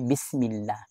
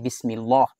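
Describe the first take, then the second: First: The 'l' in Allah is light and thin. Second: The 'l' in Allah is heavy and full. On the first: The speaker calls it right. "muraqqaq. Mababa" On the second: The speaker calls it wrong. "yan ay mali"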